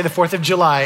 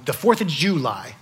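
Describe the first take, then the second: First: Said in the usual way. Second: "July" stressed on the first syllable, JOO-lie; folksy "July" as JOO-lie; rodeo-style July. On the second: Shown as a demonstration. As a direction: punch the front of "July" like a rodeo regular. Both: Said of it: "You don't say the fourth of July at a rodeo".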